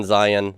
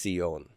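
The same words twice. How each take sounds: First: "Zion" as English "ZY-en"; English pronunciation. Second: "Zion" as Hebrew "tsee-YOHN"; Hebrew pronunciation. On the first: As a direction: say "Zion" with a buzzing Z and long I. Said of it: "our English pronunciation". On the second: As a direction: say "Zion" with TS and a stressed final "yon". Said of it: "In Hebrew, it's Zion". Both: Shown as a demonstration.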